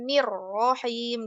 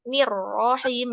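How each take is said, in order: First: The word is said lightly, without heavy force. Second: The word is said with heavy, pressed force. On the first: The speaker calls it right. "tanpa naber yang berlebihan" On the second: The speaker calls it wrong. "masih ditekan banget"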